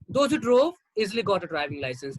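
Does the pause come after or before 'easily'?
before. The break comes before the word easily. Everyone who drove got a license without trouble. "Everyone who drove got a driving license easily"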